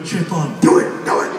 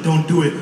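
First: Lightly voiced low devil; a hint of a tempter egging on; devil's voice. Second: Lightly voiced angel, low; a hint of a cautioning conscience; little angel voice. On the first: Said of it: "angel voice in your head like". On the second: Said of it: "little angel voice in your head".

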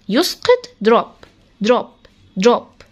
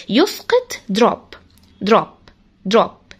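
Both takes have the same delivery.

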